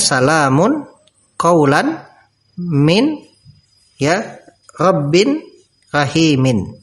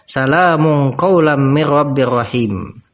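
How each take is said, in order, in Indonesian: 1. Setiap bunyi n di akhir diucapkan dengan jelas. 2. Bunyi n menyambung ke bunyi berikutnya.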